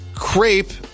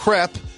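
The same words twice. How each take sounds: First: The word rhymes with grape. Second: The word is said the French way. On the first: The speaker calls it wrong. "crepe, it would, would be spelled like grape" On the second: The speaker calls it right. "is crepe, because in French you say crepe"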